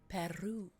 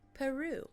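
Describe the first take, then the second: First: The R is rolled with a trill. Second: The R is said plainly, not rolled.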